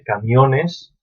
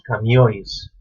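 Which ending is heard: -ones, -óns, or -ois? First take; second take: -ones; -ois. First: It ends in a full -ones syllable. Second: The n is dropped, ending in -ois.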